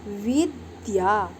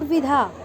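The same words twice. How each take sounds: First: विद्या said slowly, both द and या sounded; clear vidya. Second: विधा with a breathy ध and no य; wrong vidha. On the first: Teacher to her pupils, slow careful विद्या with both द and या. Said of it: "द और या दोनों की ही ध्वनि". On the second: Teacher showing pupils the wrong विधा. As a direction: say विधा as the mistake to avoid, ध and no य. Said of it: "नोट विधा". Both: Shown as a demonstration.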